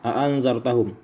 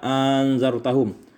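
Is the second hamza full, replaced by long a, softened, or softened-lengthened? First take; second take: full; long a. First: Both glottal stops are pronounced fully. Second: The second glottal stop becomes a long a. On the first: "bitahqiqil hamzatain, dengan mentahqiqkan atau menetapkan dua hamzah" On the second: "wa ibdalis tsaniyati alifan, diganti hamzah yang kedua dengan alif"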